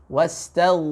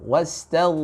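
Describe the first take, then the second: No difference in how they are said.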